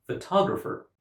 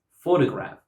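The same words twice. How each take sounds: First: "photographer" as fuh-TOG-rapher; "photographer" with a strong TOG; second-syllable stress. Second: "photograph" as FOH-tuh-graf; "photograph" with a strong opening FOH; first-syllable stress. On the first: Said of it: "stress on the second syllable". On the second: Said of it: "stress on the first syllable". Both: Shown as a demonstration.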